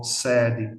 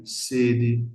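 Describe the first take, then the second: First: SEDE with open first E, "SEH-dji". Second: SEDE with closed first E, "SAY-dji". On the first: Teacher contrasting Portuguese vowels, SEDE with open E. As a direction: say SEDE in Portuguese with a wide stressed E. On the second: Teacher contrasting Portuguese vowels, SEDE with closed E. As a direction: say SEDE in Portuguese with narrow stressed E. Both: Shown as a demonstration. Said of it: "Lo que no ocurre en portugués".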